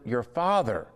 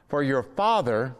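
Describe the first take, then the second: First: Father pressed, falling; stress on Father. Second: Father leaned on a little; stress on Father. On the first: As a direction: land firmly on the word Father. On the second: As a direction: lean on the word Father. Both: Shown as a demonstration. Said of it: "notice the stress on that word".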